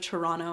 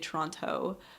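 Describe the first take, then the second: First: The second T sound is dropped. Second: The second T sound is clearly pronounced. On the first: This is how locals say it. "instead of Toronto" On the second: This shows the speaker is not from there. "I say the T in Toronto"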